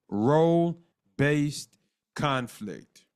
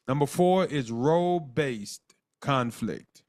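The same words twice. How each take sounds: First: "Role-based conflict" drawn out very slowly, each syllable weighted; slow it right down and lean on "Role-based"; slow emphatic repeat. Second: Said in the usual way. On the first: Shown as a demonstration. Teacher stressing the key term to the class, slowly and emphatically. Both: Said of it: "So, so notice".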